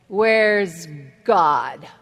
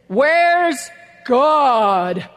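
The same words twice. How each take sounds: First: It is said sternly at normal volume. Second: It is said sternly with a raised voice.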